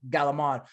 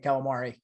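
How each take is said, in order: First: The word ends clipped, without its final vowel. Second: The word is said in full, ending on a vowel. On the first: This is how Italian Americans in New York and New Jersey say it. The speaker calls it wrong. "they say it all wrong because nobody actually in Italy says Galamad" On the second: This is how people in Italy say it. The speaker calls it right. "they actually do say calamari"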